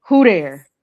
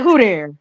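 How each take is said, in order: First: "Who there?" said flat and falling; knowing coded "Who there?"; certain tone. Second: Clipped casual "Who there?" on a falling tune; a hint of knowing street tone; certain tone. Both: Shown as a demonstration. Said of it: "you say it in a certain tone".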